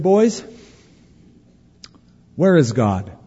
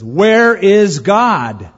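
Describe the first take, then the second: First: The question is asked gently and mildly. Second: The question is asked very firmly.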